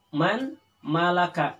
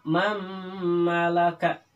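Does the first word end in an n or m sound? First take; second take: n; m. First: The first word ends with a clear n sound. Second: The first word ends with a held m sound.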